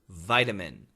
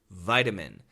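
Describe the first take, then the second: First: The middle vowel is a reduced schwa. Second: The middle vowel is a reduced schwa.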